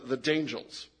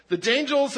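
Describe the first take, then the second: First: Said in the usual way. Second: Dangels punched out louder and higher, hard D; stress on Dangels. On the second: Shown as a demonstration. Pastor stressing the made-up team name to the congregation, punched loud. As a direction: hit the D in The Dangels so it won't sound like Angels. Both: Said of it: "not to be confused with the Angels".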